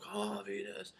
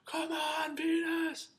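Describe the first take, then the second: First: Hushed, breathy imitation of a fan; muffled cheer. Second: Very high, strained yell; re-enacted shout. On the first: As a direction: whisper a far-away, smothered cheer. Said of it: "and muffled". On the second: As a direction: shout it like an excited fan, volume held back. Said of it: "And I shouted out".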